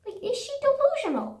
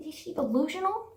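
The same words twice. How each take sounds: First: The same question, much higher, in disbelief; incredulous squeal. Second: Said in the usual way. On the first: Real, not acted. Venting about the rude waitress, high incredulous squeal. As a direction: shoot the pitch up on delusional.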